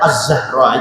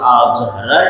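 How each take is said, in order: First: The article's L blends into the following Z sound. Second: The article's L is clearly heard before the Z. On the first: It is simply the name with the article. "seharusnya Az-Zahra aja" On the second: It means the family of the person named. "ada nampak lo lamnya tuh"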